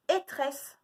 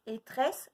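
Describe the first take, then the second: First: Higher "Étresse" as a riddle; called-out syllable. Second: Said in the usual way. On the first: Shown as a demonstration. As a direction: call out "Étresse" to the class. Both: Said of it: "de deviner lesquels c'est".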